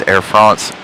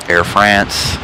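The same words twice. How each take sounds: First: "France" with a broad ah, like "Frahnce"; French-style pronunciation. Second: "France" with a flat American a, as in "ants"; American pronunciation. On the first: Shows chat both ways of saying the airline, "France" with broad ah. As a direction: say "France" to rhyme with "nonce". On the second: Shows chat the other way of saying it, "France" with American a. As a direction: say "France" to rhyme with "dance". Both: Shown as a demonstration. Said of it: "I will pronounce it both ways".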